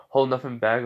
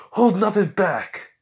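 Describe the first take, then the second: First: Said in the usual way. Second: Loud, high, slow heroic shout of the order; acted full-voiced battle cry; battle command. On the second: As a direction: cry it out, urging an all-out attack.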